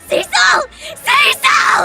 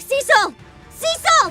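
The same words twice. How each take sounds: First: It is called out desperately, almost screaming. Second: It is called out without much desperation.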